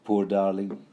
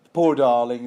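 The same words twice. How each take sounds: First: Said in the usual way. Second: Loud, mock-sympathetic patronizing coo. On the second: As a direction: lay on the condescending pity. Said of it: "this has been all patronizing".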